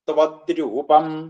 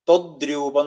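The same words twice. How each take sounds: First: The first syllable is 'tva' with a clear v. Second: The first syllable sounds like 'tho' with no v. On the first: The speaker calls it right. "ത്വ ആ വാ കേൾക്കണം" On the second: The speaker calls it wrong. "ത്വദ്രൂപം എന്ന് ചൊല്ലും, ... അത് തെറ്റാണ്. തോ എന്നല്ല"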